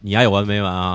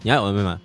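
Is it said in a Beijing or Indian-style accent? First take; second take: Indian; Beijing. First: It is said with an Indian-style accent. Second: It is said in a Beijing accent.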